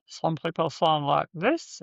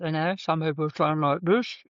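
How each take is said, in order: First: A demo of a voice squeezed tight in the throat; tightened voice. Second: A second demo of a throat-constricted voice; another tightened voice. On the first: Showing clients a tight, constricted voice. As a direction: show how a constricted tract sounds. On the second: Showing clients another tight, pinched voice. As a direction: squeeze the sound differently this time. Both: Shown as a demonstration. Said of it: "it's all about tightening".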